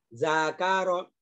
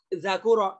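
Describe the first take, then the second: First: The vowel after the k is a. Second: The vowel after the k is u. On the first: The speaker calls it right. "Semuanya dibaca fathah" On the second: The speaker calls it wrong. "nggak boleh itu"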